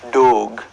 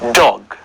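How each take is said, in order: First: The vowel sound is stretched out long. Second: The vowel sound is kept short. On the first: The speaker calls it wrong. "Dog is apparently wrong, ... People stretch it at times" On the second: The speaker calls it right. "say each sound very, very carefully"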